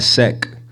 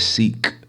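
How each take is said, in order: First: The name has a short 'e' vowel. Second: The name has a long 'ee' vowel. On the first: The speaker calls it wrong. "My name is not Sek" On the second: The speaker calls it right. "it's pronounced as Seek. Like hide and seek"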